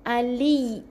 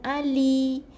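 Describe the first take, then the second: First: The y sound is doubled and pressed. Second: The y sound is short and light. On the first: The speaker calls it right. "Sebab ya ada dua. Jadi kena tekan" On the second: The speaker calls it wrong. "Bukan Ali"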